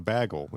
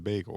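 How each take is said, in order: First: The first vowel sounds like in 'bag'. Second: The first vowel sounds like in 'bay'. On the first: The speaker calls it wrong. "it's not a bagel" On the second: The speaker calls it right. "it's a bagel"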